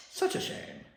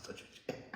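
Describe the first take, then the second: First: Whispered mock Doctor line. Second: Much softer whispered "Such a shame"; very soft Doctor whisper. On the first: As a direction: whisper "Such a shame" with relish. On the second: Retold or imitated. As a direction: barely breathe "Such a shame". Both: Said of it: "I love the way he does that line".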